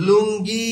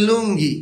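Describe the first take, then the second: First: "লুঙ্গি" stretched, the closing ই held and rising; drawn-out final vowel. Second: Said in the usual way. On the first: Shown as a demonstration. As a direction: hold the last ই of "লুঙ্গি" to show it. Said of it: "শেষে রস্বইকার আসতেছে". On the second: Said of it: "যদি আবার বলে লুঙ্গি".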